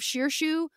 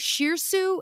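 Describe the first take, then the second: First: The second syllable starts with an 'sh' sound. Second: The second syllable starts with an 's' sound. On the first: The speaker calls it right. "I say it right when I'm not reading it on the page" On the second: The speaker calls it wrong. "I say Shirsu instead of Shirshu every time I read it on the page"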